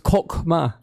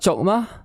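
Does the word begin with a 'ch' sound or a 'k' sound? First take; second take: k; ch. First: The word begins with a 'k' sound. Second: The word begins with a 'ch' sound. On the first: The speaker calls it right. "it's kokma" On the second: The speaker calls it wrong. "We've been pronouncing it wrong. It's not chokma"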